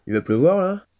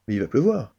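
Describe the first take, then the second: First: Pleuvoir rising into a worried question, louder; doubtful question. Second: Pleuvoir falling to a firm end; reassuring oneself. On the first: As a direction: ask "Il va pleuvoir" as an anxious question. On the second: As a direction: state "mais il va pleuvoir" with a falling tune as if convinced. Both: Acted. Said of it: "Comment un épicier ... exprimer le doute?".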